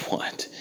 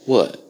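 First: What? breathed out in a soft whisper. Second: A loud, falling What? barked out. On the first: Comic repeating What? to the roommate, soft whispered take. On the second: Comic repeating What? to the roommate, loud first take. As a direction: fire off What? loud and short. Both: Acted. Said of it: "repeated What? in different ways".

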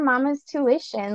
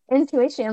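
First: "mama's tuition" said as a quick slip, intuition misspoken; slip of the tongue. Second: Said in the usual way. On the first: Real, not acted. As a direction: trip over the word as "tuition". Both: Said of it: "like, intuition".

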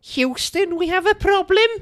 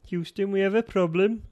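First: Very high, loud, botched Scouse accent; over-pitched Scouse key phrase; high-pitched Liverpudlian attempt. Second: Attempted Scouse accent, raised pitch; high-ish, shaky-accuracy Scouse key phrase; Liverpudlian. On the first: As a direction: squeak out a bad Liverpool accent. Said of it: "Imagine that, but less high pitch". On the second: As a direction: do a Liverpool accent, less squeaky. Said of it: "that was Liverpudlian". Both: Shown as a demonstration.

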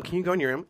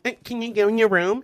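First: A lightly mocking ask, somewhat raised; mild mock version of a simple request. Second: Higher and louder mocking "Eh, can you go in your room?"; exaggerated mock version, higher and louder; hammed-up mockery. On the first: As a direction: ask it as a light mockery of an accent. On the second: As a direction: push the mockery further, up and loud. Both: Shown as a demonstration. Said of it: "same energy".

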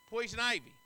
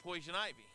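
First: "Poison ivy" said again louder and punched; emphatic repeat. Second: Said in the usual way. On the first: Shown as a demonstration. Pastor to congregation, naming the itch, emphatic louder repeat. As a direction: hit "Poison ivy" hard the second time.

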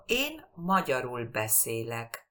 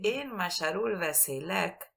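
First: "Én magyarul beszélek" with the stress on the first syllable of "Én"; correct stress on Én. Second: "En magyarul beszélek" with no weight on "En" and a lilt onto "magyarul"; foreign wrong stress. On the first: Teacher models correct Hungarian first-syllable stress. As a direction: lean on "Én" and keep "magyarul beszélek" falling after it. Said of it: "la entonación recae en la primera sílaba". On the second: Teacher imitates a learner's misplaced stress. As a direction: stress "magyarul" like a Spanish speaker would. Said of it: "no lo entiende una persona húngaro".

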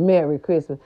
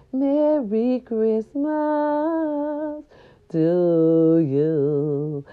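First: Said in the usual way. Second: Lightly crooned, slow "Merry Christmas"; [name] voice. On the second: Retold or imitated. Host greeting her listeners, a light [name] croon. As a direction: croon it slowly like an old jazz singer. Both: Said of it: "That was my [name] voice".

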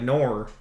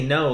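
First: Australian "nor" for no, vowel rounded with an r; Australian accent. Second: Said in the usual way. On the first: Shown as a demonstration. Showing friends how Australians say no, Australian accent. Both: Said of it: "they say no like nor".

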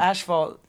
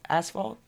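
First: Asphalt said flat with a falling end; plain statement. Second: Asphalt? rising at the end as a question; questioning rise. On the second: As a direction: ask Asphalt? in disbelief. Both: Shown as a demonstration.

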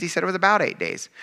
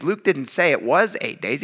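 First: "about" leaned on, set against "eight"; stress on about. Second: Said in the usual way. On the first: Shown as a demonstration. Pastor correcting a misreading to his youth group, stress on "about". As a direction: hit the word "about" and let "eight days" fall.

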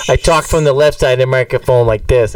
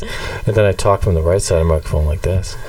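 First: Boston accent, a bit louder; Boston [name]. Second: Said in the usual way. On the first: Shown as a demonstration. Host showing his left-side persona, Boston accent. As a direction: show off the Boston voice. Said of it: "the Boston [name]". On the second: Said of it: "regular [name] talks like this".

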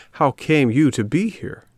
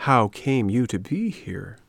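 First: Higher, livelier questioning voice; inquiring fox. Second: Slow, less lively echo of a question; cat echoing fox. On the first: Acted. Fox questioning the puppet, higher eager voice. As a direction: ask it eagerly, pitched up. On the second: A narrator's reading. Cat repeating the fox's question, slow echoing voice. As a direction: repeat it slowly, as the sidekick cat. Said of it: "repeated the cat".

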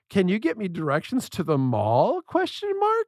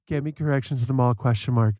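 First: Dictating to Siri, asking the question with a big rise; question tune. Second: "mall" and "Question mark." said lower and flat, no rise; telling Siri the wrong way, flat and a little fast; flat statement. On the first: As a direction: ask it like a real question, then lift "Question mark?" way up. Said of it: "make it sound like a question before I say question mark". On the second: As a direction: rattle "Get me directions to the mall" off flat, then drop "Question mark.". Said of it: "I can't just be like". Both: Shown as a demonstration.

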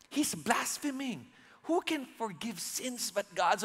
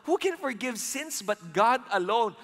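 First: Mock-whispered, softer; hushed whisper. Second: Said in the usual way. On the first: Pharisees muttering to each other behind Jesus, hushed. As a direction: say it under your breath like a secret complaint. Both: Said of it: "So medyo pabulong to".

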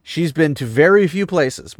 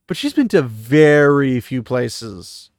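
First: Said in the usual way. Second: "been to very few places" slow and louder, each word pressed; emphatic repeat. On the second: Shown as a demonstration. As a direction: drive the point home slowly.

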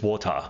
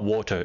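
First: "water" ending in an open "ah"; Australian "water", like "wor-tah"; Aussie "water". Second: "water" ending in a clear "er"; "water" with final er. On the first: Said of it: "They, it's ah". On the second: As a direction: pronounce the end of "water" as "er". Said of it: "they can't say er". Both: Shown as a demonstration.

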